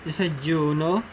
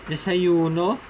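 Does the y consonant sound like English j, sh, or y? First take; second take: j; y. First: The consonant sounds like English j. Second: The consonant sounds like English y. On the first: "The J-like sound" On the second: "The Y-like or the letter I-like sound"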